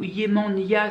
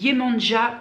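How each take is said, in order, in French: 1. Le J est un son 'y'. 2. Le J est un son 'zh' doux.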